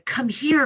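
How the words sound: It is said in a mocking, sinister tone. The call is a threat, not an invitation. "it sounds quite mocking"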